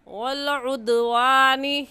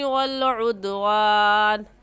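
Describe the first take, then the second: First: It ends on a vowel and flows onward. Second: It stops on the final consonant, then breath ends. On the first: The reading continues into the next words. "फिर नए सांस के साथ" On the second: The reciter pauses at this point in the verse. "वक़फ़ की सूरत में आखिरी हर्फ को साकिन कर दिया और आवाज़ और सांस दोनों ख़त्म कर दिए"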